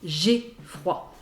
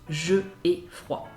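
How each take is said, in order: First: The vowel of je is dropped and joined. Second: The vowel of je is kept separately. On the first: The speaker calls it right. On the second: The speaker calls it wrong. "and not je ai froid"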